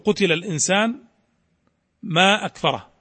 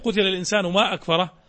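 First: There is a pause after the second word. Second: The words run on without any pause. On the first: These are two separate sentences. The speaker calls it right. "أنا أحبذ الوقف على قتل الإنسان لتتميز هذه الجملة عن تلك" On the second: The two sentences are not told apart. The speaker calls it wrong. "إذا قرأت قتل الإنسان ما أكفره لا تتبين أو لا تتميز هذه الجملة"

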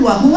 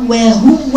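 First: The word is pronounced naturally without forced articulation. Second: The word is pronounced with exaggerated, forced articulation. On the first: The speaker calls it right. "زي القاعده النورانيه بقول وهو هكا" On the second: The speaker calls it wrong. "ده اسمه تكلف"

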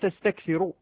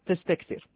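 First: The final r carries a short u vowel. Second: The final r is silent, with no vowel. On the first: The verb is read in its indicative form. "مرفوع بإجماع القراء السبعة" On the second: The verb is read with a stopped ending even mid-phrase. "يبقى على التسكين"

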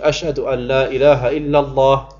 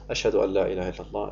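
First: It is said loudly, straight into the microphone. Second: It is said quietly, away from the microphone. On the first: It is proclaimed aloud to others. "einmal laut" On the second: It is said privately to oneself. "Ich sage für mich leise"

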